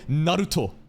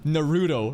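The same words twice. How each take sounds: First: The name is said the Japanese way. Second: The name is said the English way. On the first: The speaker calls it right. "you're supposed to say Naruto" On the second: The speaker calls it wrong. "instead of Naruto"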